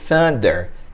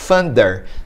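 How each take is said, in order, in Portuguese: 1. Começa com o som de th. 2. Começa com o som de f. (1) "A gente quer a língua numa posição entre os dois dentes" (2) "alguém pode ouvir thunder com som de F"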